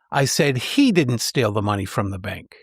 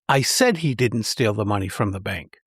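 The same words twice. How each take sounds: First: The stress falls on the word he. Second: The stress falls on the word said. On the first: Someone else might have stolen the money. "The third suggests someone else might have stolen the money" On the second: The speaker really did say it. "The second emphasizes that I actually said it"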